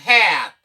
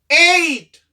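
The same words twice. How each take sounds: First: "Hat" with a short, open A. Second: "Hate" high and loud, A said as "ay"; long A. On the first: Teacher contrasts hat with hate, short A. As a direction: say "Hat" falling, vowel as in cat. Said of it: "Un short sound". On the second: Teacher contrasts hate with hat, long A. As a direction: glide the vowel in "Hate" like "ay". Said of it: "Li vin chanje son A". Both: Shown as a demonstration.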